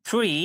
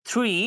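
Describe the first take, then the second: Both takes have the same delivery.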